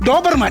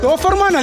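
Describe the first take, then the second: First: The second consonant is a b sound. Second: The second consonant is an f sound. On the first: The speaker calls it right. "ഡോബർമാൻ പറ" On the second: The speaker calls it wrong. "ഡോഫർമാൻ അല്ല"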